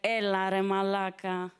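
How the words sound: It sounds disappointed and reproachful.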